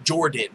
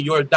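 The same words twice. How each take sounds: First: Said in the usual way. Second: Jordan as Yor-DAHN, imitating a Mexican accent. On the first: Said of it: "No, it's Jordan". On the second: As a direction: mimic a Mexican speaker saying Jordan with a y. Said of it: "with a heavy Mexican accent".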